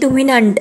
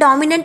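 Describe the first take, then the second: First: The first syllable is said as 'dhu'. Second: The first syllable is said as 'daw'. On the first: The speaker calls it wrong. "माही म्हणते की धुमिनंट" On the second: The speaker calls it right. "डॉमिनंट आहे असं म्हणतात"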